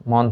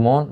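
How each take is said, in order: First: মন with an open aw vowel, "mawn"; open vowel, as spelt. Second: মন with a rounded o, "mon"; closed o vowel. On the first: Teacher cites the written word, মন with open aw. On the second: Teacher gives students the spoken form, মন as "mon". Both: Shown as a demonstration. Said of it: "ন যেগুলো সবগুলো হচ্ছে ওকার হবে".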